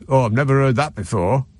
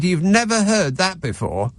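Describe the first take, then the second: First: A mild imitated Scottish accent, lightly done. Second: Said in the usual way. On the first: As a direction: retell the guy's line in a hinted Scottish accent. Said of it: "and I'll do his accent". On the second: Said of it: "I said".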